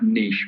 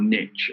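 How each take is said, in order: First: The word is said in a non-American way. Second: The word is said in an American way.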